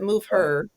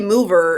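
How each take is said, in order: First: It is said with an H sound. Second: It is said without an H sound. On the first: The speaker calls it right. "I kind of say the H just because otherwise it sounds wrong" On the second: The speaker calls it wrong. "if you just say mover, it's like what?"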